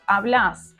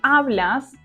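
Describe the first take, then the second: First: The stress is on the last syllable. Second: The stress is on the first syllable. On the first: This is the voseo form. "Verbs are stressed in the last syllable" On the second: This is the standard tú form. "Tú hablas"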